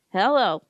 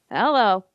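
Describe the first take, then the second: First: Drawled country Hello; hillbilly hello. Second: A drawled country Hello. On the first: Cheap funeral home guy answering in a country voice. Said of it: "Total hillbilly". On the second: Funeral home guy picking up the phone in a country voice. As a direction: answer like a Bakersfield hillbilly. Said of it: "in a country voice". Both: Retold or imitated.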